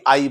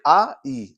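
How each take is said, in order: First: आई run together as one "ai"; आई as a single joined sound; blended diphthong. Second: आ, then ई, said apart; आ and ई as two distinct sounds; two separate vowels. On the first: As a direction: glide from आ straight into ई in आई. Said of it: "तो अभी आई बनता". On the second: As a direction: split आ and ई with a small gap. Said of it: "दो sound है". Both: Shown as a demonstration.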